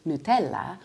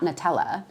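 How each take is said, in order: First: Nutella said the Italian way, noo-TEL-la; Italian pronunciation. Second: Nutella said the English way, nuh-TELL-uh; anglicized mispronunciation. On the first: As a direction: give "Nutella" a pure oo in front. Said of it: "how to say the words properly in Italian". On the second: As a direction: reduce the first vowel of "Nutella" to uh. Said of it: "not Nutella". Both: Shown as a demonstration.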